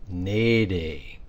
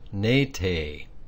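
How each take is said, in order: First: The middle consonant is a softened D sound. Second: The middle consonant is a hard T sound. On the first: The speaker calls it right. "That T has to be softened to a D" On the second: The speaker calls it wrong. "you would think it would be pronounced nete, but it's not"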